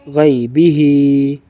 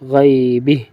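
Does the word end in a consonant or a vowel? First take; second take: vowel; consonant. First: The word ends with a final 'ee' vowel. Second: The word ends on a bare 'h' sound. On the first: Reading continues without stopping. "हा खड़ी ज़ेर ही" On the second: The reader stops at this word. "वक़फ़न"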